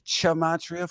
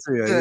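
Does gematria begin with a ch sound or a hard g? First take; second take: ch sound; hard g. First: The word begins with a ch sound. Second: The word begins with a hard g sound. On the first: "with the ch gematria for the chumps" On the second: "like gum"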